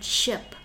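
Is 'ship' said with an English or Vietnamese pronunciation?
English. It is said with an English pronunciation. The speaker calls it wrong. "Please note that it's not ship"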